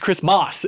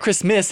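First: The last syllable sounds like 'mass'. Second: The last syllable sounds like 'miss'. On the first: The speaker calls it right. "It's Christmas. It's M-A-S" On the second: The speaker calls it wrong. "It's not Christmas. ... not M-I-S-S"

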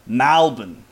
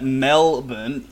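First: The first syllable sounds like 'mal'. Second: The first syllable sounds like 'mel'. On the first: "So M-A-L as opposed to the M-E-L" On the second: "instead of Melbourne, ... the M-E-L"

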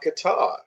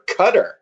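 First: The word is said with a non-American pronunciation. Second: The word is said with an American pronunciation.

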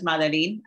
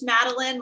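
First: The name is pronounced the Spanish way. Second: The name is pronounced the English way. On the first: This is how her Spanish-speaking family says it. "My mom, who is from Puerto Rico, says Madeline" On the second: This is how the speaker says her own name. "it's Madeline"

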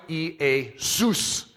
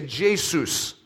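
First: The name begins without a J sound. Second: The name begins with a J sound. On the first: This is the original Greek pronunciation. "phonetic spelling, Iesus. And that's how you'd pronounce it. They didn't have a J sound" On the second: This is the usual English pronunciation. "so we say Jesus"

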